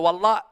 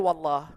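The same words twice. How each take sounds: First: The word ends with a changed final sound. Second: The word ends with its usual final sound. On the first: No real oath is sworn. "I say Wallah. You change that last letter" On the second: A real oath is sworn. "I didn't say Wallah"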